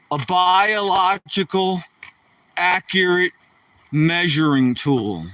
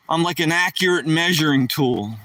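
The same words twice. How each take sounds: First: "biological... accurate... measuring tool" drawn out piece by piece; slow, mock-grand. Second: Said in the usual way. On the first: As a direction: spell it out slowly with pauses for comic weight. Grandly restates his own joke.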